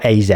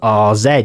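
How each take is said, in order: First: The first letter is said like 'ay'. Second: The first letter is said like 'ah'. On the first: It sounds plain and English. "or A Z" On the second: It sounds foreign and cultured. "I'm giving it a bit of R Z, like I'm cultured"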